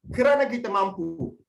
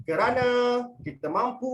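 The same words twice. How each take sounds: First: Fast delivery. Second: Slow delivery. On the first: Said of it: "yang cara laju". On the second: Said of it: "cara yang pertama, abang akan buat". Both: Shown as a demonstration.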